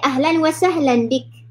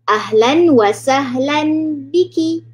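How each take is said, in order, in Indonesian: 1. Kata terakhir berakhir dengan konsonan. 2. Kata terakhir berakhir dengan vokal yang jelas. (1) "kalau kita wakaf, kita stop dekat bika, ... dia akan jadi ahlan wa sahlan bik, bik sahaja" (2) "Kalau untuk perempuan biki"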